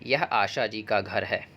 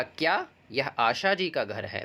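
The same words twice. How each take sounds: First: यह आशा जी का घर है said slowly as a flat statement that settles down at the end; statement tune. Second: क्या यह आशा जी का घर है asked with the voice lifting on Asha and a questioning contour; question tune. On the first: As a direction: read यह आशा जी का घर है as a calm, slow statement. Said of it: "like मैं आपको बोलूँ". (सामान्य कथन की अनुतान में धीमे से: यह आशा जी का घर है) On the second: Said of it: "इस वाक्य को बदल के बोला". (प्रश्नवाचक अनुतान: क्या यह आशा जी का घर है, आशा पर स्वर ऊपर) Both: Shown as a demonstration.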